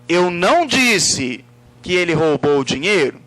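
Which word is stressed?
disse. The word disse carries the emphasis. It refers to the way it was expressed. "No modo como eu me expressei. Eu poderia ter escrito"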